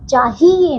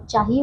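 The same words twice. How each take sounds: First: चाहिए with a drawn-out "hee"; mispronounced word. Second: चाहिए with a short "hi", softer; correct pronunciation. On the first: Teacher shows pupils the wrong word, mispronounced. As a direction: stretch चाहिए into "chaa-hee-ye". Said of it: "नहीं बच्चों". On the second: Teacher corrects the word for pupils, properly pronounced. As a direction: say चाहिए as "chaa-hi-e". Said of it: "चाहिए होता है". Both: Shown as a demonstration.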